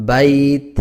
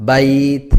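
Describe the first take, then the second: The two takes are said the same way.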